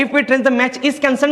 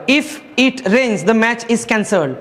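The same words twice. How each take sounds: First: Slow rereading to find the error. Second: Very slow reading of the question; slow dictation. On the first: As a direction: read it again slowly, checking each word. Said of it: "इथं पहिल्याचं चुकीचं काय आहे". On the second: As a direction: read it out word by word. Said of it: "पहिलं वाक्य बघा". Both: Shown as a demonstration.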